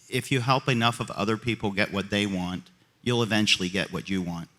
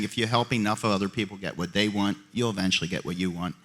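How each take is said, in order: First: It is said very slowly. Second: It is said at normal pace.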